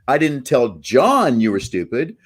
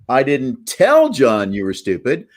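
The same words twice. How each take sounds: First: The stress is on John. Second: The stress is on tell.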